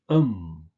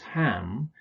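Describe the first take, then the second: First: It is said as a reduced 'um'. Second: It is said as a full 'ham'. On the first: The speaker calls it right. "you usually just pronounce it um" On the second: The speaker calls it wrong. "don't pronounce this ham"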